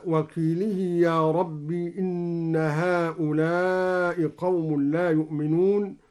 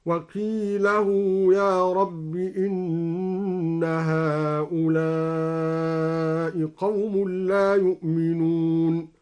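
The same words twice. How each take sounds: First: Said in the usual way. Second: Slow chanted tartil with وقيله said with open lam and a long u, qilahu; recited with Duri reading. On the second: Shown as a demonstration. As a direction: intone وقيله as qilahu with the u lengthened. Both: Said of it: "هكذا".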